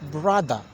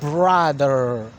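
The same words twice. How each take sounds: First: It is said in a British accent, r dropped. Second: It is said in an American accent, r pronounced.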